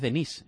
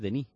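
First: The final s is pronounced. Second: The final s is silent. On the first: The speaker calls it wrong. "pero no es Denis" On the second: The speaker calls it right. "la S no se pronuncia"

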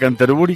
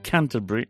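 First: Canterbury is said with Spanish sounds. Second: Canterbury is said with English sounds. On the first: "casi nos entendemos todos" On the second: "me vas a decir, ¿qué te pasa en la boca?"

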